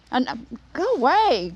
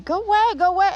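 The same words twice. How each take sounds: First: Said in the usual way. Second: High shoo. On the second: Real, not acted. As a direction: go away, go away, much higher. Shooing a bee away.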